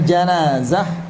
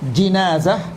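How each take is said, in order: First: The first vowel is an a sound. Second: The first vowel is an i sound. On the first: It means the dead person. "janazah pakai fathah" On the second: It means the bier carrying a dead person. "Wabil kasri"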